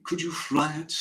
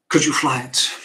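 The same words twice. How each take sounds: First: Said in the usual way. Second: Loud, scoffing question; father's loud, incredulous brush-off; dismissive retort. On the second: Acted. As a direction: throw it back loudly, dismissing it out of hand.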